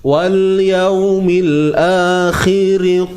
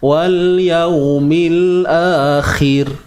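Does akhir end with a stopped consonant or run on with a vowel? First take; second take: vowel; stopped consonant. First: The final r carries a vowel into the next word. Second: The final r is stopped with no vowel after. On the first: The reader continues without pausing. "Kalau sambung" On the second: The reader pauses at the end of the phrase. "Kan kita berhenti"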